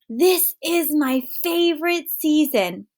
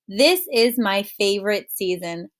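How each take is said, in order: First: It is read in an excited way. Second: It is read in a calm, plain way.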